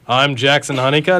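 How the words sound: The voice is pitched very low and deep.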